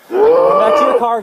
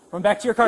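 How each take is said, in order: First: Urgent yell, high and loud; man down shout. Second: Said in the usual way. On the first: Real, not acted. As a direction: shout it to a partner across the lot. Officer calls partner, injured subject.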